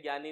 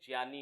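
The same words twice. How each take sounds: First: The first sound is not a clear j. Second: The first sound is a clear j. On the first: The speaker calls it wrong. "जैसे ज्ञानी नहीं होता" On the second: The speaker calls it right. "जैसे ज्ञानी होता है"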